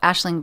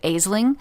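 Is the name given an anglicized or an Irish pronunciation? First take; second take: Irish; anglicized. First: The name has an Irish pronunciation. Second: The name has an anglicized pronunciation. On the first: This is what the name is really called. The speaker calls it right. "the Irish, they pronounce everything so crazy" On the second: This is how a reader guessed it. The speaker calls it wrong. "in my head I pronounced it"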